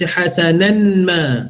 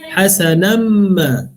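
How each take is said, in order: First: The n is pronounced clearly before the m. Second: The n merges into a nasalized m sound. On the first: The speaker calls it wrong. "jangan baca hasanan ma, salah" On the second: The speaker calls it right. "itu maksud idgham ma'al gunnah"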